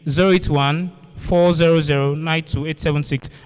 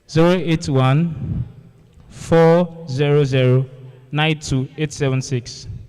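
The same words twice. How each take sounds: First: The number is read quickly. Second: The number is read slowly.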